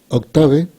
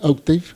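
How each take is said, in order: First: The name is said with Spanish pronunciation. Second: The name is said with English pronunciation. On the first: The speaker calls it wrong. "que está mal pronunciado, pero así lo pronuncian en español" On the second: The speaker calls it right. "En realidad debería ser Octave en inglés"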